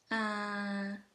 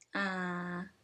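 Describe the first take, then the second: First: The syllable is said on a level mid tone. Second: The syllable is said on a low tone. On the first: "Let's compare the mid and the low tone" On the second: "Let's compare the mid and the low tone"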